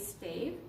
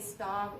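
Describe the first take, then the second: First: The vowel is a long 'ay' sound. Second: The vowel is a short 'ah' sound. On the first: "some people say Stave" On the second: "Some people say Stav"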